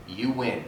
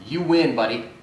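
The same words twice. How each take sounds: First: "You win" said softer and lower, giving in; softer conceding. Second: Said in the usual way. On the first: Shown as a demonstration. Conceding the fight to the driver, softly. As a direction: let "You win" drop quietly. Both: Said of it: "sacrifice my ego".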